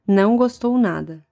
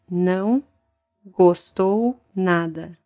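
First: It is said fast. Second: It is said slowly, broken down.

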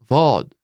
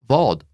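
First: The word is said slowly. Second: The word is said at natural speed.

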